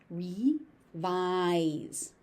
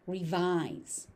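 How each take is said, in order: First: "Revise" split as ree, vise; syllable by syllable. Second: Said in the usual way. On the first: Shown as a demonstration. Teacher breaking the word down for learners, syllable by syllable. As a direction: pause between the two syllables of "Revise".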